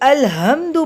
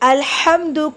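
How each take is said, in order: First: The h is a soft, plain breathy sound. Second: The h is a harsh sound from the throat. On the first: The speaker calls it wrong. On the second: The speaker calls it right.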